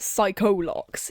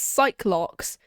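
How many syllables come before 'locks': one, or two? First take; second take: two; one. First: The first part is said as 'sigh-co'. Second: The first part is said as 'sike'. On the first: A third character says it this way. "one of them pronounces it psycho-locks" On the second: Another character says it this way. "one pronounces it as psych-locks"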